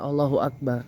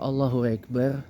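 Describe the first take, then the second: First: The opening vowel sounds like an open A. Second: The opening vowel sounds more like an E. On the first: This is how it is expected to be said. "mestinya kan Allahu Akbar" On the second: This is the Turkish way of saying it. "kadang-kadang mereka melafaz seperti dengan huruf seperti E"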